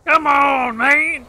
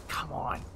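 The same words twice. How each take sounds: First: High loud exasperated shout; frustrated yell. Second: Low frustrated mutter. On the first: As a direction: shout it at the screen. Yelling after getting hit. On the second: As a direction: grumble it under your breath. Muttered after getting hit. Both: Real, not acted.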